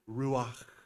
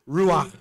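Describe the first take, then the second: First: The word is drawn out long like blowing wind. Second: The word is said short with a throaty sound. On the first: "if you really extend it, it kind of sounds like the wind" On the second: "now I want you to sound really Hebrew. So you really got to get the throat going"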